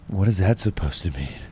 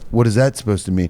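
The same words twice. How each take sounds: First: It is said in a sultry, sexy way. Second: It is said in a plain, puzzled way.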